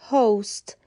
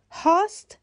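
First: هاست said as "host" with a long o, as in "go"; correct pronunciation. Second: هاست said as "hawst" with an open aw sound; wrong pronunciation. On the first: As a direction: say هاست as "hohst". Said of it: "تلفظ صحیح هاست". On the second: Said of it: "هاست غلطه". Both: Shown as a demonstration.

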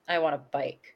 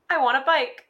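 First: Low, flat, blunt demand; flat deadpan child. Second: Put-on high, demanding little girl; bratty child voice. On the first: Retold or imitated. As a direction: say it like a sullen kid. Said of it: "And she goes". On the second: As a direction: whine for a bike like a spoiled kid. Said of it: "Miss Ashley says".

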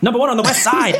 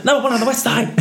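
First: High, giggly catchphrase; half-laughing, squeaky delivery; high-pitched character voice. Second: High, singsong catchphrase; high-pitched character voice. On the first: First take of the catchphrase. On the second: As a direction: squeak the catchphrase out. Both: Retold or imitated.

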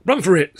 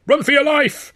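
First: Loud, high yell to flee. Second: Very high, loud yell with "your" stressed; frantic yell. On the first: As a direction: yell it as the doors fly open. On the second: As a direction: scream it like your life depends on it. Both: A narrator's reading. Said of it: "Sid yelled".

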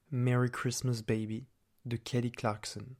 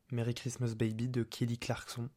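First: Put-on English accent. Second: Said in the usual way. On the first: (avec un accent anglais) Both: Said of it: "je prends un accent anglais".

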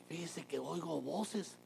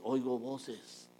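First: Slow, higher, hesitant admission of hearing voices; timid confession. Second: "Oigo voces" said very slowly and matter-of-fact; flat plain statement. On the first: A churchgoer mocking a patient confessing to voices, slow and hesitant. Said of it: "Si usted llega y dice". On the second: A believer calmly telling the pastor he hears voices. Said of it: "si usted viene y dice". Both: Shown as a demonstration.

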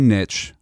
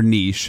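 First: "niche" said as "nitch", short i and tch. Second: "niche" said as "neesh", long ee and sh. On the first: Podcaster unsure how to say it, "niche" pronounced "nitch". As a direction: say "niche" to rhyme with pitch. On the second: Podcaster offering the other way, "niche" pronounced "neesh". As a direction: say "niche" to rhyme with leash. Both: Shown as a demonstration. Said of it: "however the hell you say it".

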